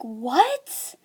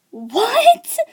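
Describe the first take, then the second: First: Softer, rising acted question; stunned disbelief. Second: High-pitched, rising mock shock; escalated disbelief. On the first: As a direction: let the spoiler sink in, quietly questioning. Acts reaction to friend's spoiler. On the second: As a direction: burst out in acted disbelief, pitch leaping up. Repeats the reaction, escalating.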